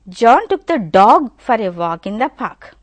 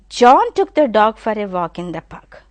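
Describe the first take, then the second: First: The stress falls on the word dog. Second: The stress falls on the word John. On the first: It was the dog that he took. "if you give stress on dog" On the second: It was John who took the dog. "immediately the stress I am giving on John"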